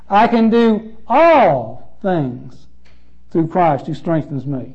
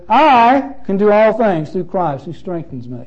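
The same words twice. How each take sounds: First: The stress falls on the word all. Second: The stress falls on the word I.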